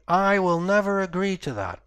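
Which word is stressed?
I. The stress falls on the word I. Others may agree, but the speaker will not. "maybe someone else will agree to that, but I won't"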